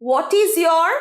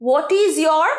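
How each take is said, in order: The two takes are said the same way.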